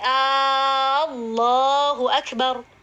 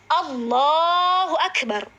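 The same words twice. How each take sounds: First: The opening A sound is drawn out long. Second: The opening A sound is kept short. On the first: It sounds like asking whether God is the greatest. The speaker calls it wrong. "A-nya panjang" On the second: It declares that God is the greatest. The speaker calls it right. "Ini yang benar"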